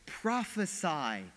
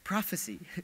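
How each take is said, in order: First: The word is pronounced as the verb form. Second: The word is pronounced as the noun form. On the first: The speaker calls it right. "it's a command, it's a verb" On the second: The speaker calls it wrong. "many of us pronounced it wrong"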